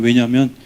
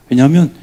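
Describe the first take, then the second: First: Said in the usual way. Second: 왜냐하면 louder and higher, ending on a rise; rising emphasis. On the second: Shown as a demonstration. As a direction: punch 왜냐하면 upward. (왜냐하면을 크게 올려서) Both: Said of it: "repeated word".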